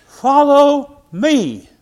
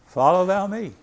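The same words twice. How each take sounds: First: Loud, high, very slow call of Jesus. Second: Said in the usual way. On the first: Acted. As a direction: stretch it out like a summons from the Lord. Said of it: "he tells the church members". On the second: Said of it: "Jesus saith unto him".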